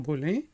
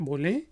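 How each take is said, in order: No difference in how they are said.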